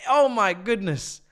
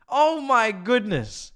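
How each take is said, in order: Both takes have the same delivery.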